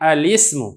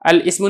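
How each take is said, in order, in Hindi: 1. लाम पर 'i' स्वर आता है, जो 'smu' से जुड़ जाता है। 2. लाम और 'ismu' अलग-अलग हिस्सों की तरह पढ़े जाते हैं। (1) "बल्कि हम इसको पढ़ेंगे" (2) "नहीं पढ़ेंगे"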